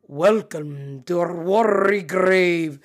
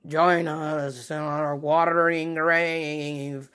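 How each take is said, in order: First: Slow, drawn-out would-be Scottish ghostly welcome; accidental Scottish accent. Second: Very slow, drawn-out underwater ghost voice; watery accent. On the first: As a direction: botch a spooky voice so it turns very Scottish. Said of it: "I sounded very Scottish". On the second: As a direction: imitate the drowned calling, stretching each word as if through water. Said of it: "like, a watery accent". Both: Retold or imitated.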